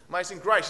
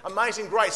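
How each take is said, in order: First: AMAZING GRACE higher and louder, the first attempt; AMAZING GRACE lifted in an acted attempt; pupil's raised pitch. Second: AMAZING GRACE pushed well up and louder; AMAZING GRACE at a strained-for higher pitch; higher attempt. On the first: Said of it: "Higher, Amazing Grace". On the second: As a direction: lift "Amazing Grace" high, imitating a coached pupil.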